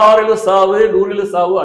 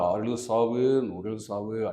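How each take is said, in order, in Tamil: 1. விளையாட்டாக, நகைச்சுவையுடன் கிண்டலாகச் சொல்லப்படுகிறது. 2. உண்மையாக, ஓர் எளிய விளக்கம் போல் சொல்லப்படுகிறது. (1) "ஒரு காமெடியான ஒரு வில்லன்ட்ட போய் அடிக்கிறாருன்னா" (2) "எதுக்கு நீ சண்ட போடுற? அப்படின்னு கேட்டதுக்கு"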